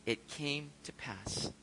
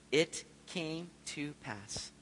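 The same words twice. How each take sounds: First: Slow hushed reading. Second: Slow reverent reading. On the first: Looking back on deliverance. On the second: Savoring a Bible phrase. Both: Acted.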